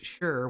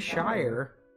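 First: The word has a short reduced vowel, like 'sher'. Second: The word has a full diphthong, like 'shy-er'. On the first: The word is attached to a place name. "but it's sure when it's attached to any" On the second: The word stands on its own. "They'll say Shire when it's just word by itself"

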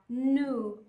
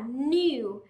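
First: It is said with an American accent. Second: It is said with a British accent. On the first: "Nhưng trong tiếng Anh Mỹ, họ sẽ chuyển những âm U đó sang thành âm U" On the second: "Thông thường trong tiếng Anh chúng ta sẽ nói là new"

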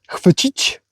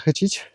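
First: The word is said in its full, careful form. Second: The word is said in a casual, clipped form. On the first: The speaker calls it right. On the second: The speaker calls it wrong. "Zaraz ktoś opieprzy za to, że za moją wymowę"

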